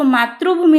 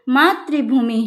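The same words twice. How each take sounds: First: The word is pronounced with an Odia accent. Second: The word is pronounced with a Hindi accent. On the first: The speaker calls it wrong. "मातृभूमि नहीं कहोगे" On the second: The speaker calls it right. "क्या कहोगे"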